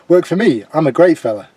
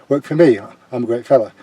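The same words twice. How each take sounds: First: The line is delivered with punchy emphasis. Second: The line is thrown away flatly and casually. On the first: The pun on the pizza place lands as a joke. The speaker calls it right. "the way I delivered it" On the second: The pun goes unnoticed. The speaker calls it wrong. "I think he really threw away"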